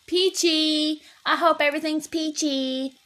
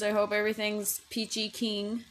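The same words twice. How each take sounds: First: Chirpy peachy. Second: Said in the usual way. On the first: Real, not acted. Correcting herself to a chirpy greeting.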